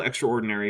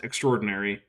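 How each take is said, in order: First: Extraordinary said "extra-ordinary"; extraordinary with the middle a fully sounded; pronounced as spelled. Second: Extraordinary said "ek-STROR-dinary"; extraordinary run together, middle a silent; usual pronunciation. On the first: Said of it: "I know it's spelled". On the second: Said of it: "it's pronounced extraordinary". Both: Shown as a demonstration.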